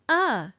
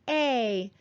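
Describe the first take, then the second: First: The word has a short, weak uh sound. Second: The word has a full, clear vowel sound. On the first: "more often we say uh" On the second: "sometimes we say a"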